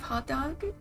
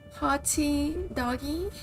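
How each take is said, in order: First: It ends on the consonant, no added vowel. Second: It ends with an added vowel, Brazilian-style.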